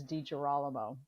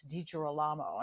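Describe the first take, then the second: First: DiGirolamo said the American way, stress on the RAH; American pronunciation. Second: DiGirolamo said the European way, stress on the LA; European pronunciation. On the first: Guest demonstrates her surname for the host, American pronunciation. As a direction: say DiGirolamo as dee-juh-RAH-luh-mo. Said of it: "the American pronunciation is". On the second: Guest shows how friends abroad say her surname, European pronunciation. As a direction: say DiGirolamo as dee-jee-ro-LAH-mo. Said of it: "my friends from Brazil and from, uh, Europe". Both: Shown as a demonstration.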